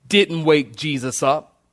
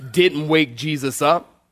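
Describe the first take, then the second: No difference in how they are said.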